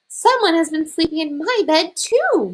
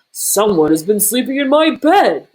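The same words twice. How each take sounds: First: Higher indignant mama bear cry. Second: Louder bellowing bear voice; bellowing Papa Bear. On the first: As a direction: cry out like an upset mother bear. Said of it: "Mama Bear cried". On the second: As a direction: bellow like an outraged big bear. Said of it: "Papa Bear bellowed". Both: A narrator's reading.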